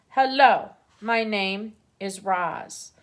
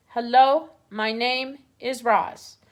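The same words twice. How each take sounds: First: Slow, even robot greeting. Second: Owl repeats the strange words; owl quoting robot. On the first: A narrator's reading. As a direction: announce yourself like a calm robot. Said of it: "the robot spoke to the animals". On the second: Retold or imitated. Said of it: "I think it was saying".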